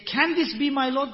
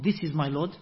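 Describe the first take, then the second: First: "Can this be my Lord?" asked high and louder with a rising tune; questioning tune. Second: Said in the usual way. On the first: Shown as a demonstration. Teacher shows the right reading as a question. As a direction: raise the voice on "this" as a real question. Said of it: "and say".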